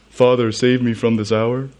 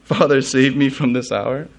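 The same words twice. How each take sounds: First: Slightly goofy mock plea, rising at the end. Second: Mock incredulous question. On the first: Preacher imagines Jesus joking at a ridiculous prayer, goofy voice. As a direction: put on a lightly silly pleading voice. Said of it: "do that in a goofy voice". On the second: Preacher as Jesus questioning his own prayer, mildly incredulous. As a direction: ask it as if the idea were ridiculous. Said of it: "he thought that would be ridiculous".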